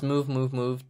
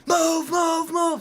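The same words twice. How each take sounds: First: Mildly raised, restrained callout; held-back mock command; uncommitted imitation. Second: High, loud shouted command; full-out urgent battlefield-style shout; committed yell. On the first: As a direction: imitate a half-hearted order without yelling. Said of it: "that doesn't work for me". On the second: Shown as a demonstration. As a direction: yell it from back off the mic. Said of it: "stand back from the microphone and yell".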